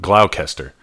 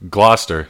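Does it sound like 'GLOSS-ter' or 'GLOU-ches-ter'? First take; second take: glou-ches-ter; gloss-ter. First: The word is said in three syllables, like 'GLOU-ches-ter'. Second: The word is said in two syllables, like 'GLOSS-ter'. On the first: The speaker calls it wrong. "not Gloucester" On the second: The speaker calls it right. "Gloucester should be pronounced Gloucester"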